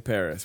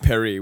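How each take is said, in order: First: Paris is pronounced the English way. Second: Paris is pronounced the French way. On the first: The speaker calls it wrong. "we say Paris, which is saying it wrong" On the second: The speaker calls it right. "We don't say Paris"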